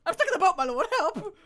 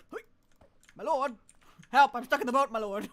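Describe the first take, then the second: First: High, loud laughing imitation of the panic; hammed-up cry for help, giggling; mock panic replay. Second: Louder, rushed cries for help; stuck and calling frantically; panicked plea to the lord; real panic. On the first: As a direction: ham up the cry through laughter. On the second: Real, not acted. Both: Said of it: "The panic. The actual panic".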